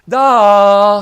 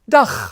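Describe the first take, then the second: First: The word is drawn out long. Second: The word is said short and clipped.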